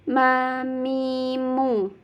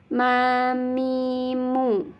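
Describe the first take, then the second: The two takes are said the same way.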